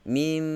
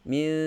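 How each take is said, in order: First: The final m is made with lips gently closed. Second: The final sound is made with lips open. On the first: The speaker calls it right. "Sekadar meletakkan saja kedua-dua bibir" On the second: The speaker calls it wrong. "Kita tidak boleh baca dengan mil. Buka"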